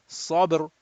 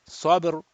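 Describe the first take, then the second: Both takes have the same delivery.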